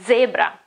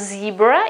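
First: The word has an Italian pronunciation. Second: The word has an English pronunciation. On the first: The speaker calls it right. "but it is zebra" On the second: The speaker calls it wrong. "So it's not a zebra in Italian"

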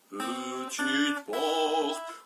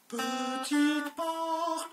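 First: The voice is lowered to a deep pitch. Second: The voice is raised to a high pitch. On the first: "À moi avec ma voix grave" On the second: "À moi avec ma voix aiguë"

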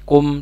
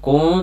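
First: The final m is pronounced clearly. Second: The final m is blurred and nasalized. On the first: The speaker calls it right. "dibaca izhar" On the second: The speaker calls it wrong. "tidak di ikfa atau disamarkan"

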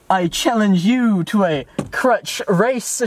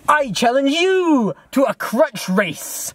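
First: It is said in a plain voice. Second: It is said in an exaggerated anime style.

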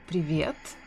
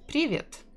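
First: The stress is on the second syllable. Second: The stress is on the first syllable. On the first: The speaker calls it right. "the correct way is to say привет, with stress in the second syllable" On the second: The speaker calls it wrong. "But if you say привет, a lot of people will still understand you"

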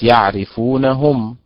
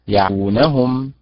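First: The final syllable 'hum' is stressed and set apart. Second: The final syllable 'hum' is unstressed. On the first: The speaker calls it wrong. "هي ليست" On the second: The speaker calls it right. "هي"

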